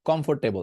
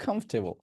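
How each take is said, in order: First: কমফোর্টেবল with full "for", as kom-for-te-bol; old habitual mistake. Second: কমফোর্টেবল shortened to "KHOMF-te-bol", softer; corrected pronunciation. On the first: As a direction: pronounce all four syllables of কমফোর্টেবল. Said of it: "আর আমরা কি বলতাম?". (কমফোর্টেবল, ফোর স্পষ্ট করে) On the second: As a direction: drop the "or" in কমফোর্টেবল. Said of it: "কমফোর্টেবল বলা দরকার নাই". (কমফোর্টেবল, ছোট করে কমফ-টে-বল) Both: Shown as a demonstration.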